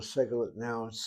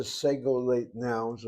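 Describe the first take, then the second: First: "segolate" shortened to SEG-uh-lit; reduced pronunciation. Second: "segolate" in full, SEG-oh-layt; full pronunciation. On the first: Teacher offers the class the other form, reduced pronunciation. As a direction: say "segolate" with weak last vowels. Gives two pronunciations of the term. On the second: Teacher gives the class the term's full form, full pronunciation. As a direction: say "segolate" with long oh and ay vowels. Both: Shown as a demonstration.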